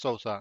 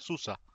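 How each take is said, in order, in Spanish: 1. La primera vocal suena como 'ou', un diptongo. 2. La primera vocal suena como una 'u' simple. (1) "nosotros lo pronunciamos Sousa" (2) "en realidad se pronuncia Susa"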